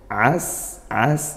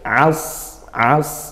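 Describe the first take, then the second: First: The s sound is thin, tongue root not raised. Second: The s sound is thick, tongue root raised. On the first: "Kalau sin" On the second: "lebih tebal seperti bunyi sin tapi tebal"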